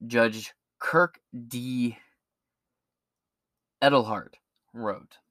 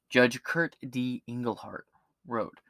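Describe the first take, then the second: First: Edelhart said as ED-el-hart; mispronounced name. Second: Engelhart said as ENG-el-hart; corrected name. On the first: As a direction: read Edelhart with a hard d, unsure. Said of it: "I hope I said this name right". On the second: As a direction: say Engelhart carefully and slowly. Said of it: "like Englehart". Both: Real, not acted.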